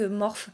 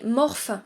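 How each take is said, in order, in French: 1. Le nom a une prononciation anglaise. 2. Le nom a une prononciation française. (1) "en anglais, Morphe, Morphe ça se dit Morphe" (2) "En français, ça se dirait Morphe"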